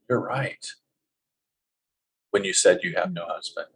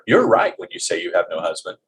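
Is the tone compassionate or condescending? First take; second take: compassionate; condescending. First: It sounds gentle and compassionate. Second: It sounds condescending and matter-of-fact. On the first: It is said with sympathy for her situation. The speaker calls it right. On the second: It is a cold statement of fact. The speaker calls it wrong.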